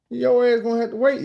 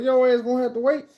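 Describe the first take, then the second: First: High insistent call through the door; higher, louder call to the woman outside; mock yell. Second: High insistent call, stress on Your; mock yell. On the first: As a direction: tell her to wait, loudly. Yelling through bathroom door. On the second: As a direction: repeat it, leaning on Your. Repeats through bathroom door.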